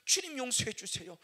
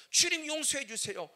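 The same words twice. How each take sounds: First: Loud cry for forgiveness; pleading prayer. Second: Louder, higher cry; peak of pleading. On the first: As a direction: beg the Lord. Repeated plea. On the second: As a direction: push the plea to its peak. Repeated plea, climax. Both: Retold or imitated.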